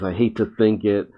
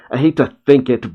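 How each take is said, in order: First: A mild sad tone on I hate to think it, a bit softer; understated sad reread; sadly. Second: Said in the usual way. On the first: Retold or imitated. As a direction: let it sink a little with regret. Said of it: "And Connor sadly says". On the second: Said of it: "Connor says".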